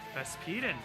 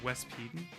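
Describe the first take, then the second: First: The name begins with a V sound. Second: The name begins with a W sound. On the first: The speaker calls it wrong. "I don't even know if that's how you pronounce the W" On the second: The speaker calls it right. "That makes more sense"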